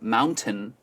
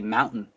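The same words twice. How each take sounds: First: The middle t sound is clearly pronounced. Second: The middle t sound is dropped. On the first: "instead of saying mountain" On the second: "they drop the T in the middle of the words"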